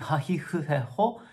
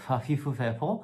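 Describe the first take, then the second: First: The syllables begin with an h sound. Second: The syllables begin with an f sound. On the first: This is how the row sounds now. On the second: This is how the row sounded in the past.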